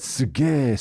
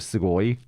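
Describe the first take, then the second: First: The word ends in a plain e sound. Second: The word ends in an oi sound. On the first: This is the casual form everybody uses. "everybody says suge" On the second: This is the full standard form. "instead of sugoi"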